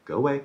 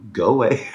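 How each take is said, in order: First: High-pitched imitation of shooing someone off; mock dismissal. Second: Raised, higher-pitched imitation of yelling; mock shouted dismissal. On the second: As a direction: re-enact an escalated GO AWAY as a shout. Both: Imitates dad repeatedly dismissing manager.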